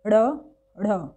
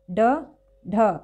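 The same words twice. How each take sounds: First: ड़, ढ़ with the tongue flipping back; flapped retroflex. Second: ड, ढ as firm stops without a flap; plain retroflex stops. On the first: Teacher contrasts dotted consonants, flapped retroflex. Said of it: "इसमें जीभ थोड़ा पलटती है पीछे की तरफ". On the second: Teacher contrasts upper consonants, plain retroflex stops. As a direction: say ड, ढ with no tongue flip. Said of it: "इनको आप इस तरह से बोलते हैं". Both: Shown as a demonstration.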